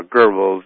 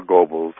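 First: Goebbels said as GUR-bulz; first vowel of Goebbels like "her"; r-coloured pronunciation. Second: Goebbels said as GO-bulz; first vowel of Goebbels like "go"; long-O pronunciation. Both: Shown as a demonstration. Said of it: "whichever way you wanna say it".

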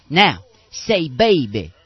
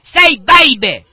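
First: Slow, drawn-out mock preacher command; lightly voiced faith healer coaxing; imitating a preacher. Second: Screamed high and slow into the ear; hammed-up healer yelling at a deaf kid; mock preacher scream. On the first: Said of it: "And then he'll say". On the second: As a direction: bellow it like a faith healer at full force. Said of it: "He'll scream into their ear".

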